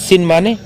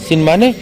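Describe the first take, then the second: Both takes have the same delivery.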